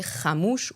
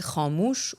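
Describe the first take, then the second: First: Khamouch with a short, front first a; short first vowel. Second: Khamouch with a long, back first a, like khaamoosh; long first vowel. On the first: Lecturer listing variants of the Persian word, short-vowel khamouch. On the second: Lecturer listing variants of the Persian word, long-vowel khamouch. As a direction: draw out a dark first a in khamouch. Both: Shown as a demonstration.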